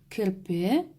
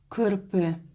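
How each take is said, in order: First: The k sound is soft. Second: The k sound is hard. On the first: The speaker calls it right. "Кырпе нужно смягчить" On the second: The speaker calls it wrong. "Неправильно"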